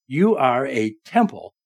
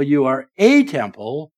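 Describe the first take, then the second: First: Said in the usual way. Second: "a" leaned on and held, then "temple"; stress on a. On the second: Shown as a demonstration. Preacher correcting his congregation, stress on "a". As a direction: hit the word "a", not "the". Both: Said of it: "not the temple".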